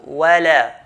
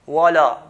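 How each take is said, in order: First: The w and l sound light and thin. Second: The w and l sound heavy and thick. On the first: The speaker calls it right. "they're from the light letters... but" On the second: The speaker calls it wrong. "So it's not"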